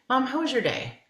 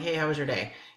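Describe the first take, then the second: First: It sounds warm and sincerely interested. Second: It sounds casual and offhand, without real interest.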